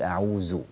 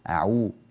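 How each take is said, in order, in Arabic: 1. الحرف الأخير هو صوت 'z'. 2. الحرف الأخير هو صوت 'dh'. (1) "لا تقل أعوذ" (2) "أخرج لسانك هكذا... هذا موضع الذال"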